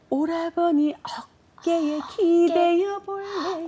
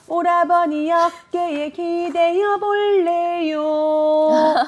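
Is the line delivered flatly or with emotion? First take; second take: with emotion; flatly. First: It is delivered with strong, tender feeling. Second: It is delivered plainly, without feeling.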